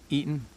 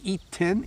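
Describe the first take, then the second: First: The T is soft, without a full stop. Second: The T is a full, complete stop. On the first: "when we talk fast, we don't really make a full stop" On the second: "when I hit the T"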